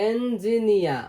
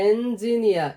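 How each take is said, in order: Both takes have the same delivery.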